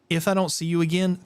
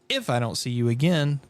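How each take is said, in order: First: The word 'if' is said without stress. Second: The word 'if' is said with strong stress. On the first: The speaker calls it right. "I would put the emphasis on the thank you" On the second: The speaker calls it wrong. "the big if"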